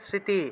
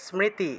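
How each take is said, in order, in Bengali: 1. m ধ্বনিটি স্পষ্টভাবে উচ্চারিত হয়নি। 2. s-এর পরে m ধ্বনিটি স্পষ্টভাবে উচ্চারিত হয়েছে। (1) "বাংলায় বললে স্মৃতি" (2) "সংস্কৃত উচ্চারণ হবে স্মৃতি, দন্তের স, তারপরে ম"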